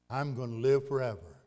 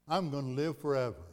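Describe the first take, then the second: Both takes have the same delivery.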